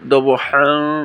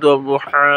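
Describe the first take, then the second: First: It ends in a nasal n sound. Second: It ends in a long a vowel. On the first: The word is joined to the next one. "এখানে দবহান মিলিয়ে পড়লে দবহান গুন্না হবে" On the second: The reciter stops on this word. "ওয়াকফ করলে দুই জবর আলা হরফ ওয়াকফ হইলে এক জবর টানিয়া পড়িতে হয়"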